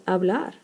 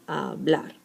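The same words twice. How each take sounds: First: Said in the usual way. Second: "hablar" broken as ha, BLAR; stress on last syllable. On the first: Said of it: "for instance". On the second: Shown as a demonstration. Teacher showing the strong last syllable of hablar, stress on BLAR. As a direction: lean on BLAR at the end of "hablar". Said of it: "the last one is the strong syllable".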